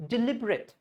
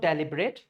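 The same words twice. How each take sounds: First: Deliberate as di-LIB-ret; deliberate with weak di and firm LIB; stressed LIB in deliberate. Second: Deliberate as DELLY-bret; deliberate said "deli-bret"; wrong DELIBERATE. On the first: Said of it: "This is". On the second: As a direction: begin deliberate with "del". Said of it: "This is not deliberate". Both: Shown as a demonstration.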